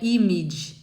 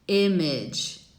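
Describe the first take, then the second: First: The first vowel sounds like ee. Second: The first vowel is between ee and eh. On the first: The speaker calls it wrong. "Não é um i" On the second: The speaker calls it right. "uma coisa in between"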